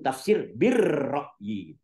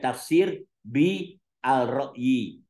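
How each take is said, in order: First: The article blends into a doubled 'r' sound. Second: The article is pronounced as a distinct 'al'. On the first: The speaker calls it right. "Harusnya langsung" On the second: The speaker calls it wrong. "Tadi kamu bilangnya"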